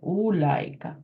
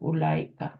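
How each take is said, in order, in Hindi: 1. पहला स्वर लंबा है। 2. पहला स्वर छोटा है। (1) "नॉट" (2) "लंबा नहीं था, मद नहीं पढ़नी"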